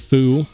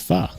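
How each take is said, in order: First: The vowel is a rounded 'oo' sound. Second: The vowel is a short, open 'uh' sound. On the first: The speaker calls it wrong. "It's not foo" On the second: The speaker calls it right. "It's fuh"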